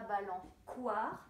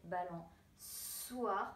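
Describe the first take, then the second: First: The c is sounded as a hard k. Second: The c is sounded as a soft s. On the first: The speaker calls it wrong. "je ne lirai pas" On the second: The speaker calls it right. "parce que je vois la cédille"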